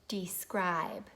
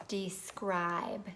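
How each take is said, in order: Both takes have the same delivery.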